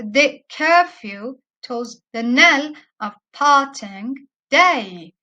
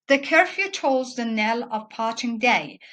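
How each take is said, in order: First: Slow beat punched hard on CUR, TOLLS, KNELL, PAR, DAY; exaggerated iambic stress. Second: Said in the usual way. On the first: Shown as a demonstration. Lecturer exaggerating the line to show students the pattern, exaggerated iambic stress. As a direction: break "the curfew tolls the knell of parting day" into iambs, each stressed syllable much louder. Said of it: "This is just pronounced like this". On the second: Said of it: "we don't exaggerate when we read".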